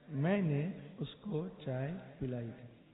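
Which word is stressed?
मैंने. The stress is on मैंने.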